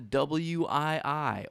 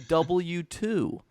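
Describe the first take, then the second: First: The name is spelled out letter by letter. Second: The name is read as a letter and number. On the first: "if you were a fucking idiot" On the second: "if you were a fucking idiot"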